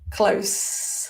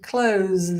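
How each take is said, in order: First: The word ends with a voiceless s sound. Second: The word ends with a voiced z sound. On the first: "close with this unvoiced" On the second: "close with our voiced z sound"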